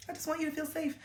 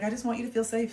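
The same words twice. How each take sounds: First: Sweet placating. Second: Gentle placating. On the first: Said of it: "I was just kinda like". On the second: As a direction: soothe her mom gently. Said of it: "I was like". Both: Retold or imitated.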